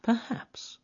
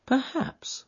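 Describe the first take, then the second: First: Higher, softer, slower echo; thoughtful. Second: Higher, softer musing; thoughtful. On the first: Holmes repeating to himself, thoughtful and soft. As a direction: drift off into thought. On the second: Holmes musing to Watson, thoughtful and soft. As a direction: weigh the word, thoughtfully. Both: Acted. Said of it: "said Holmes, thoughtfully".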